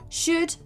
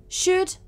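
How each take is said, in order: Both takes have the same delivery.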